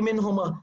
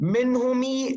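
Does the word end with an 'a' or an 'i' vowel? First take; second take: a; i. First: The word ends with an 'a' vowel. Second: The word ends with an 'i' vowel. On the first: The speaker calls it right. "Only minhuma" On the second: The speaker calls it wrong.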